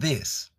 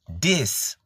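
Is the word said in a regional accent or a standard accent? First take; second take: standard; regional. First: It is said in a standard accent. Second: It is said in a regional accent. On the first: This is not how the speaker talks. "instead of this" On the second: This is how the speaker naturally talks. "This instead of this"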